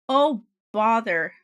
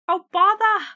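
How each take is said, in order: First: It is said in her normal accent. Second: It is said in a put-on British accent.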